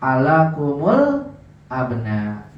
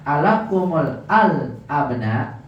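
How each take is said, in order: First: ALAKUMUL ABNA, kum joined to al by a u; linked with dammah. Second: ALAKUMUL AL-ABNA slowly, the article AL still sounded separately; slow ALAKUMUL, then a distinct AL before ABNA; unmerged article. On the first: Teacher showing how it is read, slow linked ALAKUMUL ABNA. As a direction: draw out ALAKUMUL, then drop low on ABNA. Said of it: "Dibacanya gimana?". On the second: Teacher setting up the example, AL kept apart in AL-ABNA. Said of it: "Apa yang terjadi kalau". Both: Shown as a demonstration.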